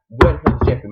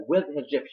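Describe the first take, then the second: First: Loud retold demand; exasperated demand. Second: Said in the usual way. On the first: Staff hunting for a missing man, exasperated. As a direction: punch every word out loudly. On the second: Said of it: "Maggie's like".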